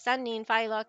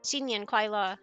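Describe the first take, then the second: First: It is pronounced the Cantonese way. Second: It is pronounced the Mandarin way. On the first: "You can hear the differences" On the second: "You can hear the differences"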